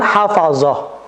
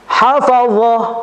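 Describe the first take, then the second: First: The consonant is a light plain z sound. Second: The consonant is heavy, tongue pressed to palate. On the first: The speaker calls it wrong. "bukan hafazah" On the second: The speaker calls it right. "Kembali lagi kepada huruf dha"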